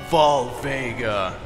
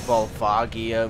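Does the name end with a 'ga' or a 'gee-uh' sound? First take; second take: ga; gee-uh. First: The name ends in a short 'ga' sound. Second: The name ends in a 'gee-uh' sound. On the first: The speaker calls it wrong. "I always called it Volvega" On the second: The speaker calls it right. "Even though there's an IA"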